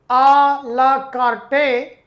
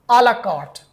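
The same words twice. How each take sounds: First: It is pronounced the English way, letter by letter. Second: It is pronounced the French way, with silent letters. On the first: The speaker calls it wrong. "it is written a la carte" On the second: The speaker calls it right. "its right pronunciation is a la carte"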